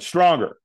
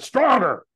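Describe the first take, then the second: First: Raised, pushing command, pitched up; coach's demand. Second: Very high, forceful yell; screamed demand. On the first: Trainer urging the firewalker to say yes harder, raised demand. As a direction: imitate a coach demanding more force. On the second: Trainer screaming at the hesitant firewalker, screamed demand. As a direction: scream it like a coach pushing someone past fear. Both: Retold or imitated. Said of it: "he screamed at me again".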